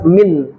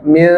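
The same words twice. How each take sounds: First: The final n is pronounced clearly. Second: The final n is blurred and nasal. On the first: The speaker calls it wrong. "Tidak dibaca jelas min" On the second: The speaker calls it right. "Disamarkan lalu didengungkan"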